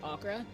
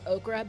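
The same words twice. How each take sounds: First: The word is said in a Nigerian accent. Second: The word is said in an American accent. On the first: "Nigerians pronounce it okra" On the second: "Americans pronounce it okra"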